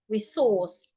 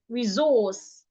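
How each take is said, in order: First: The middle consonant is an S sound. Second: The middle consonant is a Z sound. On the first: "articulate the S and the C like" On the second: "you can change the S here to a Z sound"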